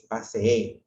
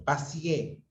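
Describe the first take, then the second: First: Paseé said with a long double e, pa-se-é; correct pronunciation. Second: Paseé said as pasié, collapsed to two syllables; wrong pronunciation. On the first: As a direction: give paseé both its e sounds. (paseé con dos e bien marcadas) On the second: (paseé dicho pasié, mal pronunciado) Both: Shown as a demonstration. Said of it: "cuando es paseé".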